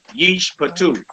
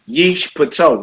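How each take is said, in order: First: The final vowel sounds like 'oo'. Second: The final vowel sounds like 'oh'. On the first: The speaker calls it right. "a long ooh on that two" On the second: The speaker calls it wrong. "Not a oh"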